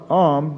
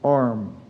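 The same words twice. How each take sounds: First: The r sound is dropped after the vowel. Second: The r sound is pronounced after the vowel. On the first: "the pronunciation of the oralist form" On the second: "as opposed to"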